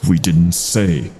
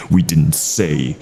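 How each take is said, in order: Both takes have the same delivery.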